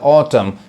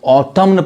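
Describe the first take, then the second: First: The word ends with an M sound. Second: The word ends with an N sound. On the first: The speaker calls it right. "एन नहीं पढ़ाता है, silent होता है" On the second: The speaker calls it wrong. "गलत miss pronounce कर देते हैं"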